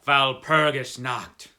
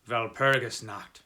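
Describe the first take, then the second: First: Loud, slow "Walpurgis Nacht" with German v and ch; a hushed dread pushed out loud and slow; fearful warning. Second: Terse German coachman, "Walpurgis Nacht" with a v sound; clipped, lightly voiced coachman; laconic. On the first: Acted. Frightened coachman crossing himself, loud and slow. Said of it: "saying as he crossed himself". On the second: Coachman answering the traveller, terse and grave. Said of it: "answered laconically".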